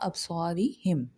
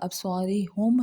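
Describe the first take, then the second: First: The ending is said with an 'i' vowel. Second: The ending is said with a 'u' vowel. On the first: The speaker calls it right. "इसका सही तलफ़्फ़ुज़ होगा" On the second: The speaker calls it wrong. "वो गलत हो जाएगा"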